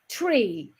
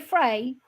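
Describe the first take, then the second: First: The word begins with a T sound. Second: The word begins with an F sound. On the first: "we say tree" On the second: "in the U K they say free"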